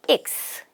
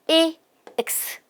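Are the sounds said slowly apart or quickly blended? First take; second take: quickly blended; slowly apart. First: The sounds are said quickly and blended. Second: The sounds are said slowly and apart.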